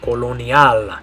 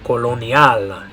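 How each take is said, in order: First: It is pronounced with Spanish vowels and sounds. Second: The same.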